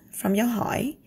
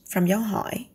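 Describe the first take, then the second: No difference in how they are said.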